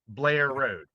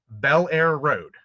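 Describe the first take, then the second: First: Squeezed into one syllable, Baltimore local style. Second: Three clear syllables, said the outsider way.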